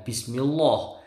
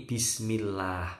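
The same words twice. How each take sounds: First: "bismillah" ending in a heavy rounded loh; wrong pronunciation. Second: "bismillah" ending in a thin light lah; correct pronunciation. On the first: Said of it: "Bukan bismillah". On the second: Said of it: "tapi bismillah". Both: Shown as a demonstration.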